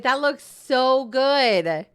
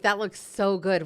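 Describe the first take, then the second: First: Very slow, louder, higher amazed drawl; drawn-out amazement. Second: Said in the usual way. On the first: Real, not acted. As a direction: stretch every word in awe. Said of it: "Wait a minute".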